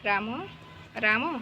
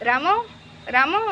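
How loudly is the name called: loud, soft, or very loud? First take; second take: soft; very loud. First: The name is called softly and quietly. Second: The name is shouted very loudly. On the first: "ଏମିତି ସଫ୍ଟଲି ଡାକିବ" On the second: "ଜୋରସେ ରାମ ରାମ ଏମିତି କ'ଣ ଜୋରସେ ଡାକିବ"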